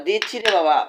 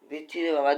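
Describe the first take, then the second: First: Higher, louder "দিচ্ছি রে বাবা"; louder reassurance. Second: Said in the usual way. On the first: Real, not acted. Telling the crying cat food is coming, louder. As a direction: raise your voice on "দিচ্ছি রে বাবা" to calm the cat.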